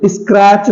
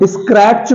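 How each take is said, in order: First: स्क्रैच as "iskrach", no T; silent T. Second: स्क्रैच with T sounded, "iskrat-ch"; wrong pronunciation. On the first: Teacher correcting the mistake, silent T. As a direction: run स्क्रैच straight into CH. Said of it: "इसमें टी silent है". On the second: Teacher asking if learners heard it, wrong pronunciation. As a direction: put a T before the CH of स्क्रैच. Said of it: "नहीं, स्क्रैच होता है". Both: Shown as a demonstration.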